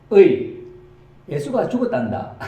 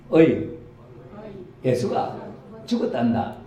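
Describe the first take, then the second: First: Put-on loud, high Gyeongsang old woman calling out the news; Gyeongsang grandma. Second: A milder Gyeongsang granny line, read along with the congregation; Gyeongsang grandma, retold. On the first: Grandma announces to friends that Jesus died, in Gyeongsang dialect. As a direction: shout it like a country granny from Gyeongsang. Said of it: "한 할매가". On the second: Preacher leads the congregation in a calmer Gyeongsang grandma reading. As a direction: lighter take of the country-granny call. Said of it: "같이 해보세요".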